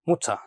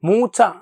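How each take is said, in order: First: The first vowel is short. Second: The first vowel is long. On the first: The speaker calls it right. "ഷോർട്ടായിട്ട് ഉച്ചരിക്കാനായിട്ട് നമ്മൾ ശ്രദ്ധിക്കണം" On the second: The speaker calls it wrong. "മൂച്ച എന്ന് പറയില്ല"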